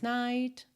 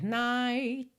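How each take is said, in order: First: The final t is clearly released without a vowel. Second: The final t is not heard at all. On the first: "Ou pode ir aparecendo mais" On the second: "Quando eu digo nada, é que pode ser night. Eu poderia encerrar aqui o som e você não ouvir esse T marcadinho"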